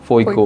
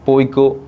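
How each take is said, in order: First: The word begins with an f sound. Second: The word begins with a p sound.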